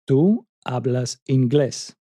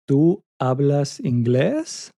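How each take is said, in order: First: The pitch falls at the end. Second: The pitch rises at the end. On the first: It states a fact. "a regular statement" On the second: It asks a question. "raise the pitch at the end to make it sound like a question"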